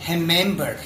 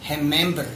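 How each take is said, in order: First: The R is a Brazilian Portuguese R. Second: The R is a Brazilian Portuguese R.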